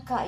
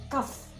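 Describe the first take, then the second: First: Short "ka", no final F; wrong open syllable. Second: "kaf" closed on a clear F; full letter name. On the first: Teacher shows the wrong reading, short open "ka". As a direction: say "ka" briefly, ending on the vowel. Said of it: "bukan ka ya". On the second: Teacher corrects to the original name, clear final F in "kaf". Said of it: "tapi kaf ya". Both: Shown as a demonstration.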